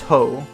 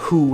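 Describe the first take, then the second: First: The syllable ends in a long 'oh' vowel. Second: The syllable ends in an 'oo' vowel. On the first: The speaker calls it right. "it's with like the long O" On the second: The speaker calls it wrong. "It's not who"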